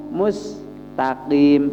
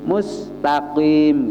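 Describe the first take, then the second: No difference in how they are said.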